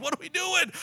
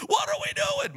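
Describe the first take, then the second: First: Mock-frazzled, high-pitched question; worked up. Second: Squealing mock panic, pitch at the very top; hammed-up falsetto freak-out; comically worked up. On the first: Preacher acting out the couple getting worked up, high and frazzled. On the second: Preacher acting out the couple getting worked up, squeaky mock panic. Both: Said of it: "we get worked up".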